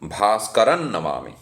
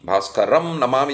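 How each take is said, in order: First: The first word ends with an n sound. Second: The first word ends with an m sound. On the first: The sounds flow smoothly into each other. The speaker calls it right. "उसको मैं म के बदले न पढ़ूंगा तो सुनने में सही लगता है" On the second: The sounds do not blend well together. The speaker calls it wrong. "म और न के बीच जैसे लगता है कि वो दोनों ध्वनियाँ मिल नहीं रही हैं"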